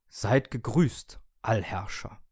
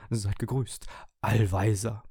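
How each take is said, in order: First: Getragen grüßende, leicht gespielte Gerätestimme; freudiger Toaster. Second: Feierlicher, gleichmäßiger Gerätegruß; Geräte im Chor. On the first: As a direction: langsam und feierlich den Herrscher begrüßen. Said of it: "rief mir freudig der Toaster". (freudig ehrfürchtiger Gruß eines Toasters) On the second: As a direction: wie eine Durchsage huldigen. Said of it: "wie aus einem Lautsprecher". (Begrüßung wie aus einem Lautsprecher) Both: A narrator's reading.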